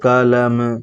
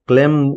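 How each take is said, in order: First: The word is drawn out slowly. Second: The word is said at normal speed.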